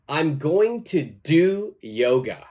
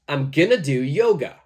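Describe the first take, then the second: First: "Going to" is said in full. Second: "Going to" is reduced to "gonna".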